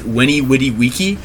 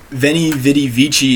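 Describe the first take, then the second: First: Each word begins with a w sound. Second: Each word begins with a v sound. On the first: The speaker calls it right. "you're supposed to pronounce it" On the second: The speaker calls it wrong. "is how it looks like it should be said"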